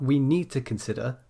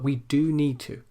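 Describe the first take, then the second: First: Said in the usual way. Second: "do" punched and held before "need to"; stress on do. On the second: Shown as a demonstration. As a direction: lean hard on the word "do". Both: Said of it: "when we want to emphasize the contrast".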